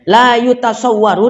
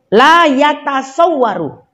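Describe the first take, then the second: First: The vowel after the first 'y' is 'u'. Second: The vowel after the first 'y' is 'a'. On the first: It cannot be perceived. "dengan dhammah" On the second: It is not possible. "kalau dibaca fathah"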